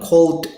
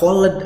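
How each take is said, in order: First: The -ed ending is not sounded as a syllable. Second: The -ed ending is sounded as an extra syllable. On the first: The speaker calls it right. "tapi kalau ini cold aja" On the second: The speaker calls it wrong. "nggak called, enggak ya"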